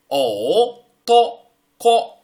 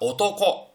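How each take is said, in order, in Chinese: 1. 每个音节分开说，中间有停顿。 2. 音节连起来说，中间没有停顿。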